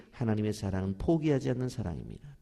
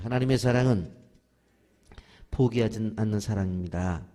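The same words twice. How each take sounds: First: Said in the usual way. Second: Louder call-and-response with 사랑은 punched; leading the repeat. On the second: Shown as a demonstration. Preacher leads the church in repeating, louder. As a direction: lead the church in saying it back, louder. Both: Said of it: "따라서 하십시오".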